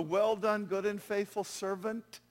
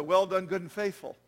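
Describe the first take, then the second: First: "servant" drawn out and set apart at the end; stress on servant. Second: "Well done, good and faithful" louder, without a drop; stress on well done. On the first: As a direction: lean on the final word "servant", slowly. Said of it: "servant emphasis". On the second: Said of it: "we emphasize the". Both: Shown as a demonstration.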